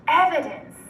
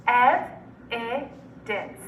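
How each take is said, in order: First: Said in the usual way. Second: Evidence in three slow, separate syllables. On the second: Shown as a demonstration. Teacher breaking Evidence up for students, syllable by syllable. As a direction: pause between the syllables of Evidence. Syllable blending drill, word broken up.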